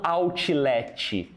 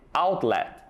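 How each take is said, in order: First: Outlet said as "autchiletchi" with added vowels; over-vowel the Ts in outlet; Brazilian-style outlet. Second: Outlet with a clearly sounded T; native outlet. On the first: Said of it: "não outlet". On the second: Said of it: "nativos que também pronunciam o som do T". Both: Shown as a demonstration.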